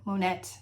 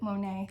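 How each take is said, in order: First: The name is given a French pronunciation. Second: The name is given an English pronunciation. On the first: "I guess is how you'd say it in France" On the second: "how I know him"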